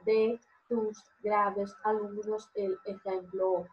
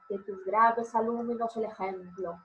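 First: The words are split apart with small breaks between them. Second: The words flow together with no breaks between them. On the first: The speaker calls it wrong. "y no" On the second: The speaker calls it right. "Yo leo todo junto"

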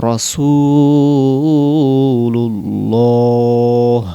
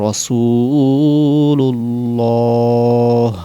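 The two takes are said the same way.

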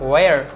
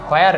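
First: The word begins with a w sound. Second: The word begins with an h sound. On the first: The speaker calls it right. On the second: The speaker calls it wrong.

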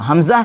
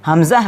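The two takes are said the same way.

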